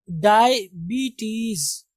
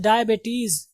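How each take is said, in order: First: डायबिटीज very slow, as dai-BEE-teez; correct pronunciation. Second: डायबिटीज said as dai-BAY-teez; common mispronunciation. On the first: Teacher introducing the proper reading, slow dai-bee-teez. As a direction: stretch डायबिटीज syllable by syllable, long BEE. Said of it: "बल्कि होगा डायबिटीज". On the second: Teacher quoting how we read it, dai-bay-teez. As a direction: put an ay sound in the middle of डायबिटीज. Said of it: "हम लोग इसको पढ़ते हैं". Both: Shown as a demonstration.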